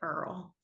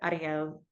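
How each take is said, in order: First: The name is said the Kentucky way. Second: The name is said the Spanish way.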